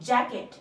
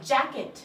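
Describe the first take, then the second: No difference in how they are said.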